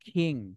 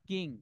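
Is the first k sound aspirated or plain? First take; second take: aspirated; plain. First: The k is strongly aspirated, like kh. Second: The k is plain, with no puff of air. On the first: The speaker calls it right. "Sound হবে খ" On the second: The speaker calls it wrong. "Not কিং"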